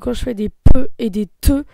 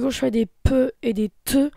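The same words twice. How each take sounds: First: The p and t sounds pop very harshly. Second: The p and t sounds pop noticeably. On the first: "simplement avec le micro ... ça fait vraiment des ruptures dans les oreilles" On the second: "seulement la bonnette ... quand je fais des pe et des te, et ben on les entend vraiment"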